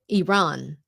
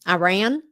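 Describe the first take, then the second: First: The name is said in a native-like way. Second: The name is said in an Americanized way. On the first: The speaker calls it right. "I would pronounce it Iran, just because it's more correct" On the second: The speaker calls it wrong. "do you remember when President Bush used to call it"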